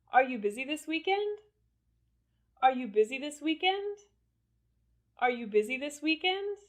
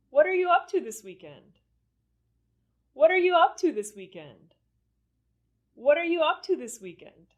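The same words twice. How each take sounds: First: Higher question climbing to "weekend"; rising intonation. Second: High start, dropping down to "weekend"; falling intonation. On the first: Teacher leading learners to say it along, rising intonation on "weekend". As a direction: keep climbing through to the end of "weekend". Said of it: "say it with me with rising intonation". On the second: Teacher leading learners to say it along, falling intonation on "weekend". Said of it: "question with falling intonation". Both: Shown as a demonstration.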